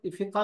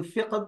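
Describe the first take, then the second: First: फ़िक़ा with an open final a instead of h; common fiqa. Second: फ़िक़्ह said the Arabic way, ending on a breathy h; Arabic fiqh. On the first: Teacher to students, the everyday फ़िक़ा pronunciation. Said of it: "अक्सर बच्चे फ़िक़ा भी कह देते हैं". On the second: Teacher to students, फ़िक़्ह in careful Arabic form. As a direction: say फ़िक़्ह with a back-of-throat q and a final h. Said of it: "ये फ़िक़्ह अरबी में है". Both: Shown as a demonstration.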